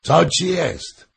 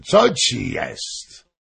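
First: Loud, high, drawn-out question; big-voiced royal demand; king shouting. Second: Slow, drawn-out question, falling; king's slow, insistent inquiry; asking. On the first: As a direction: cry out the question, slowly and high. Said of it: "krzyknął król". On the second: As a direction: stretch the question out with emphasis. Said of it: "zapytał król". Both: A narrator's reading.

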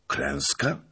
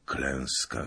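First: Rising, unbelieving Klęska?; disbelieving question. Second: Klęska said low and falling, much softer; grim confirmation. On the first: Officer hears of the army's fate, rising dread. Asking if it was defeat. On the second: Messenger confirms the rout, quiet and grim. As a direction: let Klęska sink, quiet and heavy. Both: Acted.

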